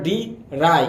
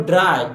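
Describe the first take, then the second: First: ডি রাই as two beats, "di... rai"; teacher sounding out ডি রাই in pieces; split into syllables. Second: Said in the usual way. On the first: Shown as a demonstration. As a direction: break the word into ডি, a short gap, then রাই. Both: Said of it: "দেখো দুইবার উচ্চারিত হয়েছে".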